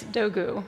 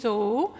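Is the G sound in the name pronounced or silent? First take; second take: pronounced; silent. First: The G is pronounced in the name. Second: The G is silent in the name. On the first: "the American pronunciation ... is a little more elongated" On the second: "The Turkish pronunciation ... so the G is silent"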